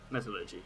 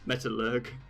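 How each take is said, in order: First: The word ends with a final ee sound. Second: The word ends without a final ee sound. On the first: The speaker calls it right. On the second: The speaker calls it wrong.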